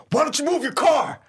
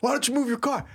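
First: High, loud imitation of an irate priest; comic impersonation of a shouted demand; mock angry yell. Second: High-pitched requote at ordinary volume; lighter, higher replay of an angry demand; mock irate priest. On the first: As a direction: yell it as if through a car window, hammed up. Imitates priest pounding on the window. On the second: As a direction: echo the yell without the volume. Repeats the priest's line more quietly.

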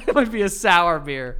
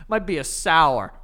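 First: Laughing through the line, louder; breaking into laughter at his own joke. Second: Said in the usual way. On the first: Real, not acted. Repeating his sour beer joke to his co-host, laughing.

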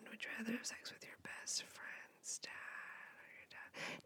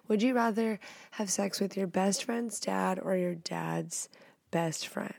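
First: Breathless whispered re-read, much softer; a whispered, secretive version of the question. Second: Said in the usual way. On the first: Shown as a demonstration. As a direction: hush it like a secret.

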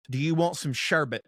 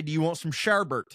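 First: Sherbet said SHER-bit, no second R; correct sherbet. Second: Sherbet said SHER-bert, with a second R; homely wrong sherbet. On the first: Asking friends the way he never would, correct sherbet. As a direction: end "sherbet" in -bit, without an R. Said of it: "But I would never ask any of my friends". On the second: Asking friends as he grew up saying it, homely sherbet. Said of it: "we grew up calling it fucking sherbet". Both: Shown as a demonstration.

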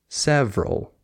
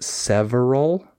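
First: Several in two syllables, sev-rul; middle syllable skipped. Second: Several in three syllables, sev-er-al; middle syllable sounded. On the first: Teacher showing the correct form, several with syllable skipped. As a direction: drop the middle vowel of several. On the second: Teacher showing what not to say, several with middle syllable sounded. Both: Shown as a demonstration. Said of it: "You just skip the syllable".

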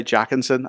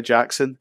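First: "Jackinson" with an extra middle syllable; "Jackinson", the rejected pronunciation with an added syllable; mispronounced name. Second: "Jackson" with no middle syllable; "Jackson", offered as the proper two-syllable name; corrected pronunciation. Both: Shown as a demonstration. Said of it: "that's the correct way to pronounce his name".

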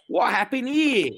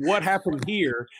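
First: Lightly voiced Australian with a Southern drawl; a hint of faux Australian with a Southern drawl. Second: A touch of Australian, drawled Southern; mild mock Australian-Southern; faux Australian with Southern drawl. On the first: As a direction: say it like a kid's fake Australian cop, drawled. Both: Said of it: "with Australian accent, but with a Southern drawl".

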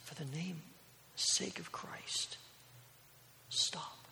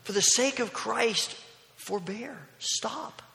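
First: Slow, whispered final plea; acted failing breath, soft and halting; dying last breaths. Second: Urgent, higher-pitched mock yell; raised-voice plea, pitch jumping up; retold yell. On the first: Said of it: "With his last breaths". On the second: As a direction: cry out in protest, without full force. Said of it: "And he began to yell".

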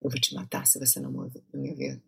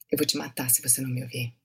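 First: Quiet menacing threat. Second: Soft, fast menacing line; hushed, deadpan Portuguese threat; cold vampire threat. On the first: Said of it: "Okay, say". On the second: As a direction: threaten him quietly without blinking. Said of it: "don't blink". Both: Shown as a demonstration.

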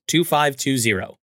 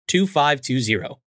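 The two takes are said the same way.

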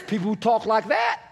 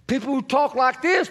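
First: A light contrasting put-on voice, called out; voicing another way of talking. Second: A light put-on voice for one kind of people; voicing one way of talking. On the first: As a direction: lightly imitate the other kind of speaker, half-shouted. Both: Shown as a demonstration.

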